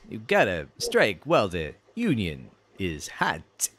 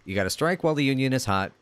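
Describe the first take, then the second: First: It is said in a put-on cartoon character voice. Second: It is said in the speaker's ordinary voice.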